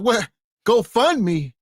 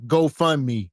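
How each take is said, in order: First: Mock disbelief, pitched up; higher, astonished echo of the answer; incredulous interviewer. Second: Deadpan mock interview answer; matter-of-fact answer. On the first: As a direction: imitate a baffled interviewer questioning the answer. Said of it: "They gonna be like". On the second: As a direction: answer the interviewer as if it's a normal job. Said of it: "They gonna wanna know".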